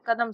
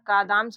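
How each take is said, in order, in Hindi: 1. स्वर छोटे और जल्दी बोले गए हैं। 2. स्वर "a" को लंबा खींचकर बोला गया है। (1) "ये कदम वाला सही होगा" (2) "कादाम नहीं होगा"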